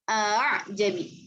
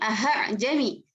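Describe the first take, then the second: First: The second hamzah is softened and eased. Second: The second hamzah is pronounced as a full separate sound. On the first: The speaker calls it right. "tapi a'jami. Hamzah yang keduanya seperti di ayun" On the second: The speaker calls it wrong. "bukan aha-jami"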